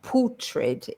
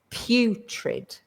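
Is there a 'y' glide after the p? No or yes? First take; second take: no; yes. First: The first vowel has no 'y' glide before it. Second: The first vowel sounds like the word 'you'. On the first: The speaker calls it wrong. "it's not putrid" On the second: The speaker calls it right. "that you is is is the same pronunciation as not he or she or I, but you"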